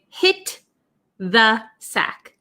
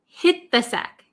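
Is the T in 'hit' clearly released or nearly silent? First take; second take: clearly released; nearly silent. First: The T at the end of 'hit' is clearly released. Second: The T is nearly silent and linked to 'the'. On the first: The speaker calls it wrong. "We don't really say hit the sack" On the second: The speaker calls it right. "this T almost becomes silent and it links with this T H"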